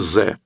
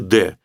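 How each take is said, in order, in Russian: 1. Слово начинается со звука z. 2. Слово начинается со звука d. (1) "ни в коем случае не говорите «ze»" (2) "лучше, повторяю, говорите «de»"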